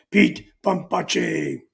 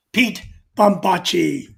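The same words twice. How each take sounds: First: Slow drawn-out DJ announcer name call. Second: Slow booming radio DJ intro. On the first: Shown as a demonstration. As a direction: roll out the name like a radio host. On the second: Acted. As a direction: announce the name like a radio DJ. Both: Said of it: "How's my D J voice?".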